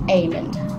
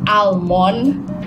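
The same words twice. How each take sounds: First: The L sound is silent in the word. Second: The L sound is pronounced in the word. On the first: The speaker calls it right. "It should be almond" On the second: The speaker calls it wrong. "We don't pronounce it almond or almond"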